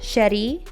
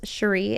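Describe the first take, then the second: First: The name is said with a Spanish accent. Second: The name is said with an English accent.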